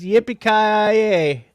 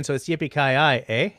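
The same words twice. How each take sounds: First: Loud, high, drawn-out cowboy cheer; big playful holler; triumphant whoop. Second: Playful Canadian take, quicker and less shouted; lightly joking Canadian catchphrase; Canadian version. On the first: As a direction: belt out the catchphrase and stretch the end. Whooping cowboy catchphrase to announce midnight. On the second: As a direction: add a Canadian "eh" tag at the end. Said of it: "we're Canadian". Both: Pretend.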